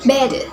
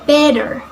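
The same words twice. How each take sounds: First: It is spoken with an Australian accent. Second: It is spoken with an American accent. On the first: "In Australian accents" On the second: "American accents"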